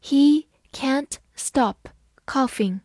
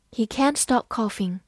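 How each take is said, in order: First: Slow, word by word; slow model reading of the sentence. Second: Said in the usual way. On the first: Shown as a demonstration. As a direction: read it slowly for learners. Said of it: "好，慢慢来读". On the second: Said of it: "慢慢来读".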